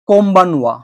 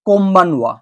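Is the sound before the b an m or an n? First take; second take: m; m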